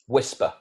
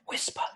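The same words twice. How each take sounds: First: The word is spoken in a normal voice. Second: The word is spoken in a whisper. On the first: The speaker calls it wrong. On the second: The speaker calls it right.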